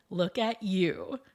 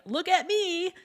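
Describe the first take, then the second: First: Lower, slower, generous greeting; look-at-you greeting. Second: High, showy call for attention; look-at-me shout. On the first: Kind partygoer greeting others, lower and slower. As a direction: turn the spotlight onto the other person. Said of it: "those who enter shouting". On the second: Self-centred partygoer entering, high and showy. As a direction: grab the room, all about yourself. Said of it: "those who enter a room shouting". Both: Retold or imitated.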